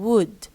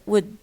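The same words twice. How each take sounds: First: The vowel is full and strong. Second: The vowel is reduced and weak. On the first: "instead of saying" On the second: "we usually use the weak forms"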